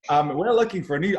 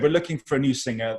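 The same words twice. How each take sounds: First: Higher, louder attempt at Aussie; poor Australian accent. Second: Said in the usual way. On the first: Soap character announcing a search, in a poor Australian accent. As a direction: keep up the bad Australian accent. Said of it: "I don't know why I'm carrying on with the accent". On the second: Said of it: "I'm not very good at it".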